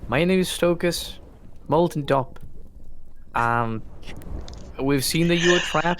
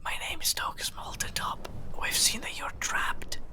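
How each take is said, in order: First: It is spoken aloud in full voice. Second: It is whispered.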